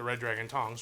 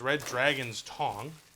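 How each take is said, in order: First: The s sound comes at the end of Tong. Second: The s sound comes at the end of Dragon. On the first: The speaker calls it wrong. "not the Red Dragon Tongs" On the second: The speaker calls it right. "I'm going to try and say that right"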